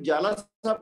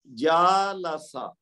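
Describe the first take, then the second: First: The first vowel is said short. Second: The first vowel is held long. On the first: The speaker calls it wrong. "अगर हम दूसरे वाले को जालासा पढ़ेंगे तो फिर वो गलत है" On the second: The speaker calls it right. "उसको दो हरकत तक खींच के पढ़ देंगे"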